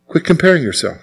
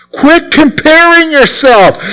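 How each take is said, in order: First: Softer, settled-down repeat; preacher quietly repeating his point; soft reminder. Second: Much higher, slow, drawn-out command; preacher pleading with his flock, drawn out and high; emphatic plea. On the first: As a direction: let it land gently. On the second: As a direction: lean hard on comparing, slowly. Repeated exhortation, emphatic. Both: Acted.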